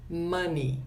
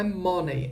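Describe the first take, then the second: First: "Money" with an open, short first vowel like mâni; correct money. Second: "money" with a closed o and ending like monei; wrong money. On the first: Teacher modelling the right Money for Brazilian learners. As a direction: say "Money" as mâni, not mônei. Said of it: "essa palavra aqui se pronuncia assim". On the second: Teacher showing the common Brazilian mistake, monei. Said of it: "Não é money". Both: Shown as a demonstration.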